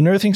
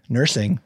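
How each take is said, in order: First: "nursing" with a th for the s, like nurthing; slip on nursing. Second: Said in the usual way. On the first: Real, not acted. Podcaster stumbling while telling the story, "nursing" slipped into nurthing.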